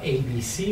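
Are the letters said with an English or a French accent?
English. The letters are said with English vowels. The speaker calls it wrong. "et non pas A, B, C en anglais"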